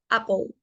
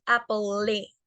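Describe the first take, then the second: First: Apple ending on the L, "apol"; apple, final E left silent. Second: Apple with the final E voiced, "apo-le"; wrong E sounded. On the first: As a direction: say apple with no vowel after the L. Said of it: "Solo se pronuncia hasta la L". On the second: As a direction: say apple slowly, ending in a Spanish "le". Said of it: "no es apple". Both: Shown as a demonstration.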